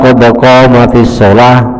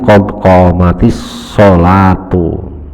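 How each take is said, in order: First: The last word ends in a closed -ah sound. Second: The last word ends with a -u vowel. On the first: "lebih baik seperti itu" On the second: "bukan qad qamatis sholati, tapi qad qamatis sholatu"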